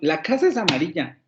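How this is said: It is said with an exclamatory intonation. The speaker is surprised that it is so. "lo puedo hacer como una exclamación"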